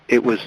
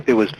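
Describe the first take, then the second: No difference in how they are said.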